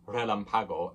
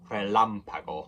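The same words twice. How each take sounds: First: The stress falls on another syllable, not the first A. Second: The stress falls on the syllable with the first A. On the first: The speaker calls it wrong. "So it's not relampago" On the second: The speaker calls it right. "With the accent on the first A, that's where you put the stress"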